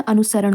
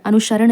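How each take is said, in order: First: अनुसरण with a plain s; correct pronunciation. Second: अनुसरण with sh in place of s; wrong form shown. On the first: Teacher giving the correct form, अनुसरण with s. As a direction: say अनुसरण as anu-saran. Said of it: "ये वाला सा होता है". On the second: Teacher citing the mistake, अनुसरण said with sh. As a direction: say अनुसरण as anu-sharan. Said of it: "अनुसरण नहीं होता". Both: Shown as a demonstration.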